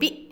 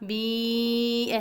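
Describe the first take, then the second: First: The vowel is cut short with a jerk. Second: The vowel is stretched out long. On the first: "जल्दी से बी" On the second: "ये लंबी आवाज़ें हैं"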